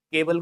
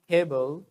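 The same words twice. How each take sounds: First: Said in the usual way. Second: "केबल" with an aspirated k; model pronunciation. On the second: Shown as a demonstration. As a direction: puff air on the K of "केबल". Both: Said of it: "केबल को क्या बोलोगे?".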